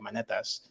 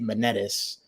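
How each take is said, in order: First: The name is said with a Greek pronunciation. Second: The name is said with an American accent. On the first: This is how the name sounds in the original language. "in Greek, it'd be like Monetas" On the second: This is how the speaker says his own name. "I say it Monetis"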